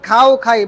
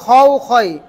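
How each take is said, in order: First: The second syllable has an open unrounded vowel. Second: The second syllable has a rounded vowel. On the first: The speaker calls it wrong. "আপনি যদি বলেন খাও খাই, ... রোজা থাকবে? হবে না" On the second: The speaker calls it right. "আপনি বলতে হবে খাও খয়"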